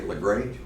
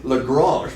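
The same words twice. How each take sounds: First: It is said the Georgia Southern way. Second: It is said the French way.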